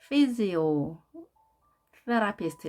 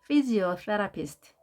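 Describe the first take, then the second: First: The word is split into two parts with a pause. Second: The word is said smoothly without any pause.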